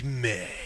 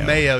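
First: The word is said in a low, suggestive voice. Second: The word is said in a plain, neutral voice. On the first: This is how the other host makes it sound dirty. "You're like mayo. ... It's a creepy vibe" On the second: This is how the word should normally sound. "You're not saying like mayo"

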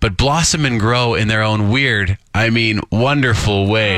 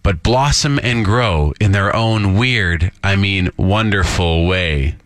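First: The ending is read with a cheeky tone. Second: The ending is read plainly, without cheekiness.

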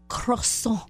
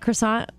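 First: Croissant is said in a French-style way. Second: Croissant is said the everyday American way. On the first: This is the supposedly correct pronunciation. "the proper way to say croissant" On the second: This is how everyone locally says it. "my niece is like, "Oh, yeah, you want a croissant?""

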